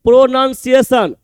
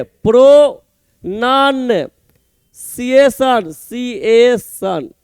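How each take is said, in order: First: Said in the usual way. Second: pronunciation very slowly, in separate chunks with pauses; broken into syllables. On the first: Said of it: "अलग लिखिए पहले अपने से". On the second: Shown as a demonstration. Teacher showing students how to say it, pronunciation slowly broken up. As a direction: split pronunciation into pro, non and ciation, each drawn out. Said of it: "देख कैसे बोलेंगे".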